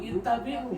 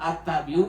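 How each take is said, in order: First: The word begins with an 'i' vowel. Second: The word begins with an 'a' vowel. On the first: The speaker calls it right. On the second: The speaker calls it wrong.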